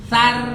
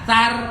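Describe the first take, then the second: First: The r is pronounced thin, with a light vowel. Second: The same.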